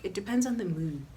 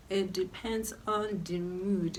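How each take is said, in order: First: Said in the usual way. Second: "It depends on the mood" drawn out slowly; slowed, weighty restatement; slow emphatic repeat. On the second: Shown as a demonstration. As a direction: repeat it slower to drive it home.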